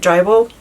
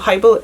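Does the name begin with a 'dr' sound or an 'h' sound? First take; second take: dr; h. First: The name begins with a 'dr' sound. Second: The name begins with an 'h' sound. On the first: The speaker calls it wrong. "I always said Drybel, and I think that's wrong" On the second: The speaker calls it right. "I hope that I'm pronouncing it right"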